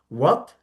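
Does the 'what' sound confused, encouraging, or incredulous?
confused. It sounds puzzled, asking for a repeat. The listener did not understand what was said. "When you don't understand what you have been told"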